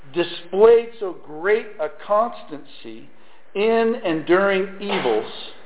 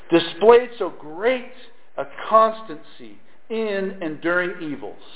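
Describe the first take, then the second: The two takes are said the same way.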